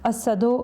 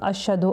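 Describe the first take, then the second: First: The middle consonant is an 's' sound. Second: The middle consonant is a 'sh' sound. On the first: "mais il disait" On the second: "la lettre euh, Shin en arabe"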